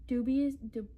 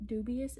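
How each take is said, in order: First: "dubious" tried hesitantly and cut off; "dubious" started, then broken off; unsure pronunciation. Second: "dubious" said again with a questioning rise; "dubious" retried, rising at the end; retried pronunciation. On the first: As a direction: stumble over "dubious". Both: Shown as a demonstration. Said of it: "is that how you say that word?".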